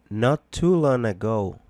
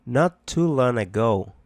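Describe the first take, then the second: No difference in how they are said.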